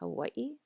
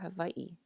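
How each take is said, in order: First: The middle consonant is a w sound. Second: The middle consonant is a v sound. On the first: "like an English W" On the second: "or a V"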